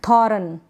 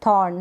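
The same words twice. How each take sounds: First: थॉर्न stretched into tho-ran; full vowel after the r in थॉर्न; wrong pronunciation. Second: थॉर्न as one syllable, r half sounded; correct pronunciation. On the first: Teacher isolates the misreading, two-syllable थॉर्न. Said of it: "ना कि". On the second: Teacher sums up the right reading, one-syllable थॉर्न. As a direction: keep the r slight in थॉर्न. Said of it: "तो इसलिए थॉर्न ना कि". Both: Shown as a demonstration.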